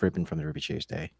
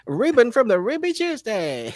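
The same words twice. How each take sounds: First: The voice is low and sad. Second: The voice is higher and brighter.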